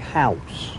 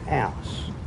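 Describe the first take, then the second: First: It is said in a standard English accent. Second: It is said in a Cockney accent.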